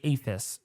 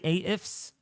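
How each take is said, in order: First: It is said as one blended word. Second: The first letter is named separately. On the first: "but I say aphis, so it's not tongue twisting to me" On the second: "You could say A ifs"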